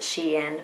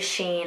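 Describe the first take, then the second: First: It is said as two syllables, she-in. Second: It is said as one syllable, like sheen. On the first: The name is short for she inside. "I always say Shein because it's short for she inside" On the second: This is how many other people say it. "a lot of people say Sheen"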